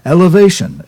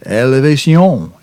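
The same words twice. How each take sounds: First: It is said with an English pronunciation. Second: It is said with a French pronunciation.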